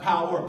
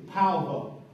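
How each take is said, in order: First: The word is said in a standard pronunciation. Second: The word is said in a dialect pronunciation. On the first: "Not power" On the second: "as we say in our ethnicity"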